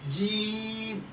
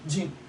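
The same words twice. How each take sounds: First: The vowel is long and stretched. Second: The vowel is short, not stretched. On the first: The speaker calls it right. "It has a, a stretching alphabet in between it" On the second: The speaker calls it wrong. "It's not jim"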